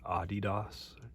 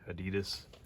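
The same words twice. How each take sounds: First: The name is said the German way. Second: The name is said the American way. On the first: The speaker calls it right. "the girl doing the video was like it's Adidas" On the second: The speaker calls it wrong. "we say Adidas"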